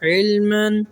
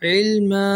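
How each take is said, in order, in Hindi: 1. शब्द 'n' की आवाज़ पर खत्म होता है। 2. शब्द लंबे 'a' पर खत्म होता है, 'n' नहीं।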